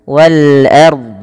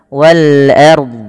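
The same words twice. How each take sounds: Both takes have the same delivery.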